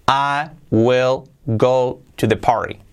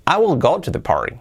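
First: Slow, careful English model line; slow model sentence. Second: Said in the usual way. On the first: Shown as a demonstration. Teacher modelling example sentence, slow and careful. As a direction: read I will go to the party slowly for learners. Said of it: "model sentence read slowly". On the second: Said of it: "repeat at normal pace".

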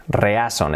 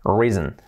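First: "Reason" read as written in Spanish, re-a-son; "Reason" as re-A-son, Spanish vowels; spelling pronunciation. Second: "Reason" said REE-zn; "Reason" the English way, ee vowel, two syllables; English pronunciation. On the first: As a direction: say "Reason" letter by letter as Spanish sounds, with separate e and a. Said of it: "escrito reason". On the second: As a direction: say "Reason" with one long ee and a reduced ending. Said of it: "pronunciado reason". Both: Shown as a demonstration.

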